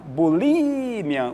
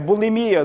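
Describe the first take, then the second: First: The stress is on the 'li' syllable. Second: The stress is not on the 'li' syllable. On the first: This is the Spanish pronunciation. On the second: This is the Portuguese pronunciation.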